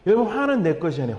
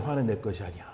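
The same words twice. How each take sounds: First: Said in the usual way. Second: Much softer and lower echo of 화는 내 것이 아니야; soft repeat. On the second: Shown as a demonstration. Preacher echoes his point to the congregation, softly. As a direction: let 화는 내 것이 아니야 sink in quietly. Repeats the key sentence twice.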